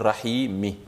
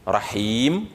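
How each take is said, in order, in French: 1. Le mot se termine par la voyelle i finale. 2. Le mot se termine par la consonne m. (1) "on va dire rahimi" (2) "au lieu de dire rahim"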